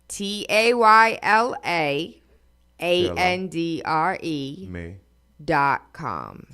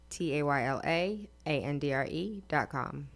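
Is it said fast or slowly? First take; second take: slowly; fast. First: It is said slowly. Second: It is said fast.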